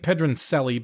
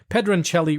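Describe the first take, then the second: First: The name is said with an American pronunciation. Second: The name is said with an Italian pronunciation. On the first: "It might be Pedroncelli" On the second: "because it's Italian, we're going to pronounce it correctly"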